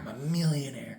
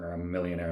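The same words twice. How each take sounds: First: It is said with strong, forced feeling. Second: It is said flatly, without feeling.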